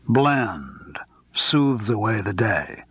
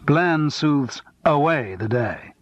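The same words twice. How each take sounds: First: The word Bland carries the stress. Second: The word away carries the stress.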